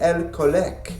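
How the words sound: It is said with a Canadian French accent. "while a French-Canadian might say"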